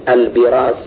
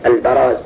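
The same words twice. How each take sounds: First: The first vowel is an 'i' sound. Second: The first vowel is an 'a' sound. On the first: The speaker calls it wrong. "وهو لحن" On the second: The speaker calls it right. "هكذا بالفتح"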